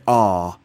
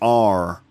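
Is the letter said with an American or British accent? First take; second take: British; American. First: The letter is said in a British accent. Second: The letter is said in an American accent. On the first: "In British English, you'd say R" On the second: "In America, it'd be like R"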